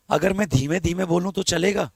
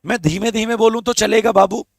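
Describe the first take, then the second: First: Softer, lower soft ask; speaking softly. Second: Said in the usual way. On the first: Shown as a demonstration. Teacher softly asks students if quiet talk is okay. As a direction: drop the voice and ask gently.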